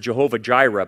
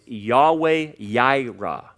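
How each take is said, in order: First: Both words begin with a J sound. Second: Both words begin with a Y sound. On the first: The speaker calls it wrong. "they pronounce it with a J" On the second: The speaker calls it right. "There's no J in Hebrew. It's Yahweh Yireh"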